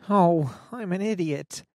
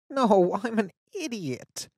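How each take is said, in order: First: Lightly voiced teen friend, a touch flustered; a hint of embarrassment, higher; embarrassed girl. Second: Higher, louder start, pushing the point on idiot; insist, more flustered now; insistent embarrassed girl. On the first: Fiona embarrassed. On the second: Acted. Fiona insists.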